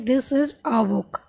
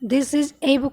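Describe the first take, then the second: First: The article is a short weak 'uh' sound. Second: The article is a full 'ay' sound. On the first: The speaker calls it right. "इसको पढ़ेंगे this is अ book" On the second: The speaker calls it wrong. "This is ए book नहीं पढ़ेंगे"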